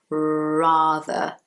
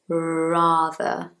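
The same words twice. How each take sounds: First: The word begins with a curled-tongue R sound. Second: The same.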